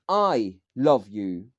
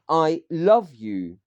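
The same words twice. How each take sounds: First: The stress is on "I". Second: The stress is on "love".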